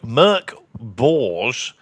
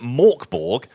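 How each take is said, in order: First: The name is said with its original vowel sounds. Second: The name is said with English-style vowel sounds. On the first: This is the creator's own pronunciation. "Morkborg is pronounced uh, like Merc Borge" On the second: This is how many English speakers say it. "which a lot of people um, in America or uh, the U K do"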